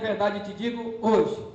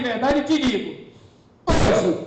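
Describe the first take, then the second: First: The phrase breaks after the word hoje. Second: The phrase breaks before the word hoje. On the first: Today is when the promise is spoken. The speaker calls it wrong. "não é em verdade, em verdade eu te digo hoje" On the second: Today is when they will be in paradise. The speaker calls it right. "Não é te digo hoje, é em verdade, em verdade te digo, hoje estarás comigo"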